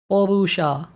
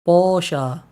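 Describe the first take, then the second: First: It is said syllable by syllable with extra vowels. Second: It is said close to the English word. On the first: It follows the written letters exactly. "if you want to follow the actual lettering, yeah, Porusha is correct" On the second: It stays close to the original name. "super close to how you pronounce Porsche"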